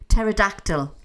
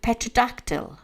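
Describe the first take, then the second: First: The opening P sound is left silent. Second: The opening P sound is pronounced. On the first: The speaker calls it right. "A silent P" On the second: The speaker calls it wrong. "Have I actually pronounced that right?"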